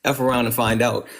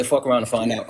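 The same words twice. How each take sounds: First: F said as the letter name ef; self-censored ef around and find out; censored swear. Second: The full word fuck said outright; uncensored swear. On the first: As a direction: spell out F as ef instead of the swear. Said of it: "I apologize". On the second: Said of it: "or I'm sorry". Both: Shown as a demonstration.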